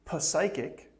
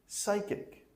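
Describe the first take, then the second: First: The p at the start is pronounced. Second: The p at the start is silent. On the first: The speaker calls it wrong. "Don't say" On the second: The speaker calls it right.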